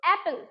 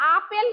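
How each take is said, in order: First: The first vowel is like 'a' in cat. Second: The first vowel is an open 'ah' sound. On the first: The speaker calls it right. "কিন্তু অ্যাপেল" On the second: The speaker calls it wrong. "আপেল না"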